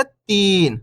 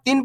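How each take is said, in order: First: Long, stretched "तीन"; "तीन" with a sustained long ई; drawn-out vowel. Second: Short-i "तीन", like tin; "तीन" said with a brief छोटी ई; short vowel. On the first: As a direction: hold the ee in "तीन". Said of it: "खींच के पढ़ेंगे कैसे". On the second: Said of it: "छोटी ई की मात्रा का उच्चारण हो जाएगा". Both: Shown as a demonstration.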